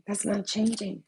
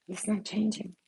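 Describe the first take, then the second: First: Said in the usual way. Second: Soft whisper. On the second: Real, not acted. Telling viewers her ex stays family, in a soft whisper. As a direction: let it fall to a private whisper.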